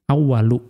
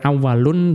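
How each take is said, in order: First: The word ends on a vowel without n. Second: The word ends with an added n sound. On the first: The speaker calls it right. "tetapi awwalu" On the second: The speaker calls it wrong. "bukan awwalun"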